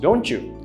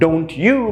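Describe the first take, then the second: First: The two words are blended into one sound. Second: The two words are said separately.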